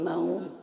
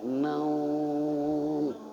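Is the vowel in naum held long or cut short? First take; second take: short; long. First: The vowel in naum is cut short. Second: The vowel in naum is held long. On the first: The speaker calls it wrong. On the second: The speaker calls it right. "tapi panjang"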